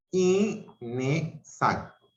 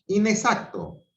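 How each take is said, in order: First: Inexacto said slowly as i-ne-xac-to; slow syllables. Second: Said in the usual way. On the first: Shown as a demonstration. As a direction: cut Inexacto into i-ne-xac-to, prefix not kept apart. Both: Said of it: "se dividen silábicamente".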